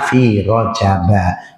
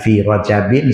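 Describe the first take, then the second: First: The word ends in a plain -a sound. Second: The word ends in an -in sound. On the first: The speaker calls it right. "Yang betul adalah fi rojaba, karena majrurnya dengan fathah" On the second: The speaker calls it wrong. "bukan fi rojabin, salah, tak betul"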